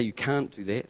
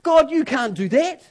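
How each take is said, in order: First: The same words dropped low and soft; subdued mutter of protest; low, soft and flat. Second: High, loud cry of protest; raised protesting cry. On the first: Shown as a demonstration. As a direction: say it low and quiet, no fight in it. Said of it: "He doesn't say". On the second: Retold or imitated. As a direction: throw the objection up at God. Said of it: "He says".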